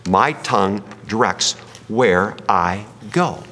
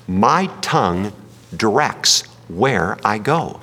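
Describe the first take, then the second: First: Slower still, landing on go; deliberate repeated sermon point; slow repeated emphasis. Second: Slow, each word weighed; deliberate sermon emphasis; slow emphatic statement. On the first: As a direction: repeat it slowly so it sticks. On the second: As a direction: lay it down slowly like a key point. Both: Shown as a demonstration. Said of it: "Let me say it again".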